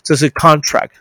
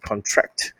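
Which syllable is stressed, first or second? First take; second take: first; second. First: The stress is on the first syllable. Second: The stress is on the second syllable. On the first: It is the noun meaning an agreement. "如果重音在前面，假设重音在这里" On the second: It is the verb meaning to shrink. "那contract 叫做重音在中后面的话"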